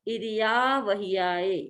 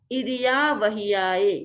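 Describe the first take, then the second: No difference in how they are said.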